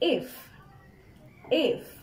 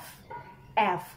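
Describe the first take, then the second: First: The letter name begins with an 'i'-like vowel. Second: The letter name begins with an 'a'-like vowel. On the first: The speaker calls it right. "আমাদেরকে বলতে হবে if if" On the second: The speaker calls it wrong. "অনেকে কিন্তু আমরা এটাকে বলি f f, কিন্তু এটাকে কিন্তু আমরা a এই সাউন্ড দিয়ে বলতে পারবো না"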